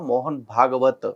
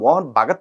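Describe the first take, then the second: First: The surname is said with three syllables. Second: The surname is said with two syllables. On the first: The speaker calls it right. "అని చెప్పా" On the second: The speaker calls it wrong. "కాదురా"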